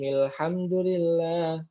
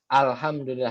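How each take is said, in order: First: The opening 'a' is dropped and linked on. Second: The word starts with its own 'a' sound. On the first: It continues from the preceding verse. "Kalau misalkan diwasol dia tidak dianggap" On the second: Reading starts at this word. "ketika dibaca dimulainya di alhamdulillah, makanya dibacanya a"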